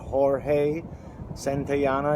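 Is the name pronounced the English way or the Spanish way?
Spanish. The name is pronounced the Spanish way.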